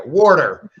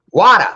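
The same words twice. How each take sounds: First: WATER in a Midwest accent with hard Rs; drawn-out Midwest WATER, Rs pronounced. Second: WATER said loud and high with no R; non-rhotic WATER, raised in pitch and volume; accent demo of WATER. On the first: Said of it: "Midwest have an accent". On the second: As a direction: punch WATER with an open ah, dropping the final R. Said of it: "we in the Midwest have an accent". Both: Shown as a demonstration.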